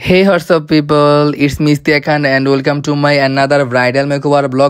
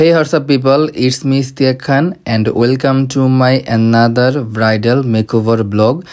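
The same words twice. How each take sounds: First: Slow, deliberately calm intro; careful slow vlog opening to please her teacher; slow and smooth. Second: Slowed-down second try at the intro; slow restart. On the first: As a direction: take the intro slowly and smoothly, as the teacher asked. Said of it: "আস্তে আস্তে কথা বললে blog বানালে". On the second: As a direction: ease into it again, very slowly. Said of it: "প্রথম থেকে শুরু করতে হইব". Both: Shown as a demonstration.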